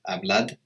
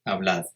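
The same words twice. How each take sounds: First: The final d is a hard d sound. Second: The final d sounds soft, like English th. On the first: The speaker calls it wrong. "it doesn't tend to be pronounced as a hard D like hablad" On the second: The speaker calls it right. "it's almost like the English T H"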